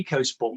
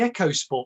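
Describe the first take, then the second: First: The first vowel sounds like the one in eek. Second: The first vowel sounds like the one in echo. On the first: This follows how the name is spelled. "I call it the Eco Sport because it doesn't say Echo" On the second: This is the maker's own pronunciation. "Ford calls it the Eco Sport"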